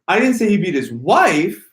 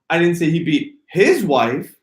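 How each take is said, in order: First: The stress falls on the word "wife". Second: The stress falls on the word "his". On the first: He beat someone other than his wife. "If I inflect on wife" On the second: He beat the wife of someone else. "If I inflect on his wife, his"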